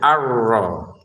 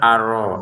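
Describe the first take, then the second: First: The r sound is pressed and held long. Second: The r sound is light and short. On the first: The speaker calls it right. "Kemudian ro-nya kita tekan ya" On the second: The speaker calls it wrong. "Jangan sekedar ar-ro"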